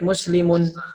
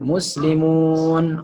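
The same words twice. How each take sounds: First: The final vowel is kept short. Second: The final vowel is held long. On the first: "Dibaca pendek" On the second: It refers to many Muslims. "orang-orang Islam"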